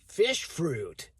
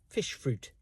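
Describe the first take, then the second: First: It is said in an American accent. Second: It is said in a posh English accent. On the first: "In America, they'd say" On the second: "in posh English, this is"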